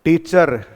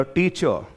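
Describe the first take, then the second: First: टीचर said heavily, with a hard retroflex T and a rolled R at the end; rustic टीचर with a rolled R; village Hindi accent. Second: टीचर said softly and smoothly, like a fluent English speaker; polished English-style टीचर; educated English accent. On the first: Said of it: "वो कैसे होगा?". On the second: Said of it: "वो कैसे बोला?". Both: Shown as a demonstration.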